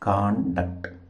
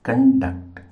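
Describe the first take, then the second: First: The stress is on the first syllable. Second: The stress is on the second syllable. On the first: Behaviour. "Stress మార్కు ఇలా ఉపయోగిస్తాం" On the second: To organize or carry out something. "Duct మీద stress మార్క్ పెట్టాలి"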